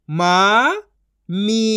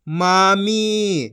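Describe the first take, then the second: First: मामी split into मा, pause, मी; syllable by syllable. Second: मामी as one joined word; long मामी, falling at the end; blended reading. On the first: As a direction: sound out मामी in two syllables. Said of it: "एक एक अक्षर का उच्चारण करके". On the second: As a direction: join मा and मी. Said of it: "इनको आपस मिला के पढ़". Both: Shown as a demonstration.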